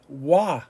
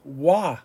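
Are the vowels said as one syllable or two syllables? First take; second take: one syllable; one syllable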